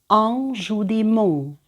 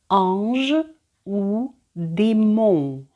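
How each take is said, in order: First: The phrase is said faster. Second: The phrase is said slowly. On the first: "за другим разом я роблю це швидше" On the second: "Перший раз я читаю повільно"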